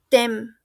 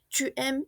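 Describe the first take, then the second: First: The vowel of "tu" is dropped, merging into "aimes". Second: The vowel of "tu" is kept before "aimes". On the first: The speaker calls it wrong. "y no es" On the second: The speaker calls it right. "por qué el chu funciona así"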